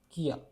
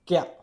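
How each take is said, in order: First: The sounds are split into two separate syllables. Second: The sounds are blended into one smooth syllable. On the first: The speaker calls it wrong. "It won't be pronounced kia" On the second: The speaker calls it right. "It will be pronounced kya"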